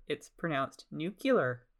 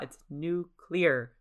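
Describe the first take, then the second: First: Slow It's pronounced nuclear with nuclear as nu-ku-ler; drawn-out nu-ku-ler on nuclear; nu-ku-ler pronunciation. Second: Slow It's nuclear with nuclear as nu-clee-ar; careful nu-clee-ar on nuclear; nu-clee-ar pronunciation. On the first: Correcting herself for listeners, slow nu-ku-ler. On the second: Correcting the word for listeners, slow nu-clee-ar. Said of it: "But it's not". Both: Shown as a demonstration.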